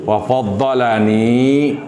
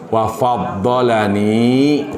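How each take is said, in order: No difference in how they are said.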